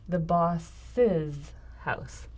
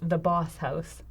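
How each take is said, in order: First: Boss's is said as two syllables before house. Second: Boss is said as one syllable before house. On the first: The speaker calls it right. "We say the boss's house" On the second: The speaker calls it wrong. "We don't say the boss house"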